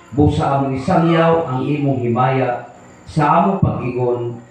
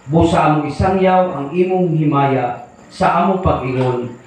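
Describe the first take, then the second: Both takes have the same delivery.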